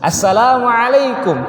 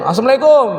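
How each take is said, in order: First: All the letters are pronounced light and thin. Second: All the letters are pronounced heavy and thick. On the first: The speaker calls it right. "tipis semua tuh" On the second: The speaker calls it wrong. "wah tebel semua tuh"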